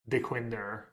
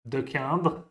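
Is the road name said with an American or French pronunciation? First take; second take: American; French. First: The name is said with an American pronunciation. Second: The name is said with a French pronunciation. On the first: "in American they say de Quinder" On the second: "in French you would say de Quindre"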